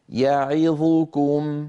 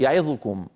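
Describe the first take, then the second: First: All the vowels are held for equal length. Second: Some of the vowels are cut short and rushed. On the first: The speaker calls it right. "لا يصح أن يسرع القارئ عند حرف من هذه الأحرف المتحركة أكثر مما جاوره" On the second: The speaker calls it wrong. "هكذا يخطف بعض الحركات"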